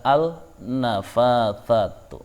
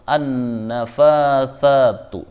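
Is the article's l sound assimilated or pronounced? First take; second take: pronounced; assimilated. First: The l is clearly pronounced before the consonant. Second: The l merges into a doubled following consonant. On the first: The speaker calls it wrong. "Tidak boleh membaca" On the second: The speaker calls it right. "Maka cara bacanya"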